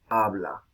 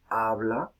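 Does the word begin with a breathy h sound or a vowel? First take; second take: vowel; vowel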